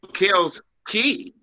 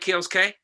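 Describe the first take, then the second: First: The second name ends with a 'kee' sound. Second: The second name ends with a 'kay' sound. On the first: The speaker calls it right. "so I should have said Key" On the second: The speaker calls it wrong. "I just like saying K"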